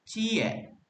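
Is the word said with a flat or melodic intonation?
melodic. It is longer with a melodic intonation. It is the Lima Puluh Kota way of saying it. "with a longer and more melodic intonation"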